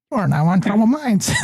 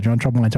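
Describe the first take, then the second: First: High mechanical robot voice. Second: Said in the usual way. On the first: Retold or imitated. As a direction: announce it like an automated phone robot. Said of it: "the robot goes". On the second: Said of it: "Jay, what's up, brother".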